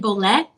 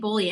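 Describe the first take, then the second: First: The word ends with an 'eh' sound. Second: The word ends with an 'ee' sound. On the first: The speaker calls it wrong. "it looks like Boleh because it's L E H" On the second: The speaker calls it right. "it's actually Boli. ... it rhymes with holy"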